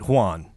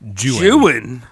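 First: The name does not rhyme with 'ruin'. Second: The name rhymes with 'ruin'. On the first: The speaker calls it wrong. "I instinctively want to pronounce it Juan" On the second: The speaker calls it right. "Lord Byron intended you to pronounce Juan Juin"

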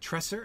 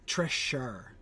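First: The middle consonant is a hissing S sound. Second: The middle consonant is an SH sound. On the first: The speaker calls it wrong. "With an S, with a hissing S" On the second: The speaker calls it right. "So not the S, the SH"

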